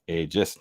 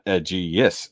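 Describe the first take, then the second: First: The word has no extra 'ee' sound. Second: The word has an extra 'ee' sound. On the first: The speaker calls it right. "There's no other e sound" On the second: The speaker calls it wrong. "not Aegeus"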